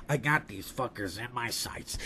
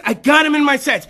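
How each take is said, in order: First: Slow, very deep, hushed elephant; Jumbo. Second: Imagined hunter. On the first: Elephant takes aim at the hunters, slow deep menace. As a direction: drop low and quiet, stalking them. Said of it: "I imagine that's how he sounds". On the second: Hunter tells his party he has aim, raised eager voice. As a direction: call it out in an open, raised voice. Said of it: "And he's like". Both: Acted.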